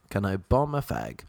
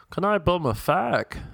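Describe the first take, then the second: First: Said in the usual way. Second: High-pitched put-on Dublin accent; mimicked Dublin accent, pitched up; Dublin Irish accent. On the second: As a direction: do a girl at the bar in a lilting Dublin accent. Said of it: "Dublin Irish accent".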